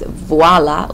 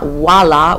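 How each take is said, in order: First: The word starts with a V sound. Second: The word starts with a W sound. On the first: The speaker calls it right. "it's voila with a V" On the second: The speaker calls it wrong. "It's not voila with a W"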